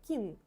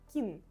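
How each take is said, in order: The two takes are said the same way.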